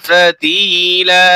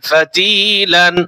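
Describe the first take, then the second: First: The word ends with a long drawn vowel. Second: The word ends with an n sound. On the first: This is the form used when reading the verse. "আর যখন রিডিং করব তখন ফাতিলা টান হবে।" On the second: This is the form used while spelling. "এটা বানানোর সময় লান হবে"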